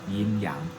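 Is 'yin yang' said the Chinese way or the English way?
Chinese. It is said with a Chinese pronunciation. "but yin yang"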